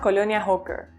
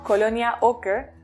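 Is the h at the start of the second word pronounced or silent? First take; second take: pronounced; silent. First: The second word begins with an h sound. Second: The second word begins with a vowel.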